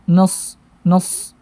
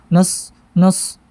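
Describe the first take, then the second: Both takes have the same delivery.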